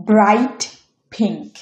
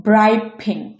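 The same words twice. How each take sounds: First: Said in the usual way. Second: ব্রাইট said "braip" before pink; assimilated T. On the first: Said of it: "পরের উদাহরণ নিয়েছি". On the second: Shown as a demonstration. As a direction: turn the t ending ব্রাইট into an unreleased p. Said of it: "same নিয়ম".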